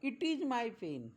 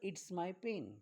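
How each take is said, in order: First: It is said as two separate words. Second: It is contracted into one syllable. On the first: "तुम्ही इट्स my pen हे वाक्य असं देखील म्हणू शकतात" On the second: "इट इज my pen असं म्हणायचं नसेल तर"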